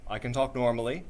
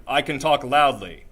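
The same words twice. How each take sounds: First: Said in the usual way. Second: Louder, projected voice; loud from the diaphragm. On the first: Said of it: "kinda talk normally". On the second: Shown as a demonstration. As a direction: push it out hard from the belly. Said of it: "push real hard".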